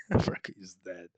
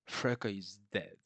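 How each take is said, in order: First: Freka is dead, said much louder in disbelief; louder amused restatement of the death; emphatic repeat. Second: Said in the usual way. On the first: Real, not acted.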